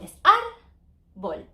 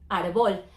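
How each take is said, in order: First: The stress is on the first syllable. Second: The stress is on the last syllable. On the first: The speaker calls it right. "but it's not árbol. It's árbol" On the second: The speaker calls it wrong. "It's a L, so it should be árbol"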